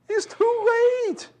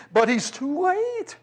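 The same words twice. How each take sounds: First: Sing-song taunt, pitched way up; jeering taunt, very high. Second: Sneering jeer pitched well up; mock him for being late; scornful mockery, high and slow. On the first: Acted. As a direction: rub it in like a playground jeer. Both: Mourners mocking Jesus, acted.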